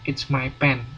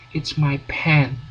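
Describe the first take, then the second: First: The p is released without a puff. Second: The p is released with a strong puff. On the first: The speaker calls it wrong. "Jadi bukan it's my pen, itu salah" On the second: The speaker calls it right. "Jadi Anda ngomongnya it's my pen"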